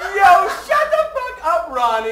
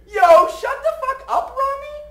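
First: The voice falls at the end. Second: The voice rises at the end.

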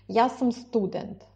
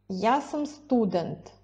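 The two takes are said the same way.

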